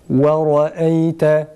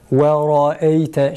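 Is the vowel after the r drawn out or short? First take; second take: short; drawn out. First: The vowel after the r is kept short. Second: The vowel after the r is drawn out. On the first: The speaker calls it right. "kesinlikle uzatmadan" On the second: The speaker calls it wrong. "şeklinde değil"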